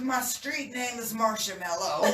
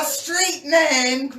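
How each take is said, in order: First: Said in the usual way. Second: "my street name" with street hit high, loud and slow; stress on street name. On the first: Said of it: "repeats phrase plainly". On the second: Shown as a demonstration. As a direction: lean hard on "street" and draw it out. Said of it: "repeats phrase with emphasis".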